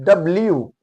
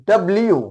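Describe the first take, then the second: No difference in how they are said.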